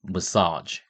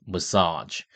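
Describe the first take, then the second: Both takes have the same delivery.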